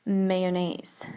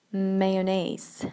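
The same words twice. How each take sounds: The two takes are said the same way.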